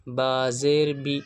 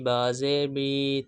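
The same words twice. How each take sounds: First: The final vowel is kept short. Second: The final vowel is stretched out long. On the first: The speaker calls it right. "किस तरीके से पढ़ेंगे?" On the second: The speaker calls it wrong. "ये हरफ हमको बढ़ाने नहीं है, ऐसे नहीं पढ़ना।"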